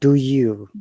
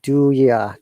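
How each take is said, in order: First: The word 'you' is said in full. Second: The word 'you' is reduced to a short 'ya'. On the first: The speaker calls it wrong. "not do you" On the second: The speaker calls it right. "natives will pronounce it do ya"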